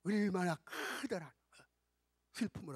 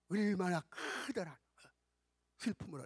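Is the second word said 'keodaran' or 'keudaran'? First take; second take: keudaran; keudaran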